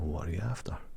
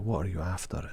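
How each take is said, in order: First: It sounds friendly and warm. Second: It sounds blunt and demanding. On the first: It is a polite offer of help. "if you say it nicely" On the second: It means what do you want. "it's in a tone of voice"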